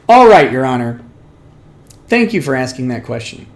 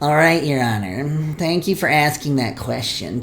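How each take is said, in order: First: It is said in the speaker's normal voice. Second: It is said in a sniveling put-on voice.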